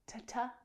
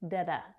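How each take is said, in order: First: The consonant is a crisp T sound. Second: The consonant is a soft D-like flap. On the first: "You may hear the t sound" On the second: "or you might hear the flap T sound. It sounds more like a D"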